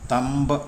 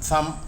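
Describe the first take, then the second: First: A b sound is heard after the m. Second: The word ends on the m, b silent. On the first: The speaker calls it wrong. "എന്നല്ല" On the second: The speaker calls it right. "എന്നാണ്"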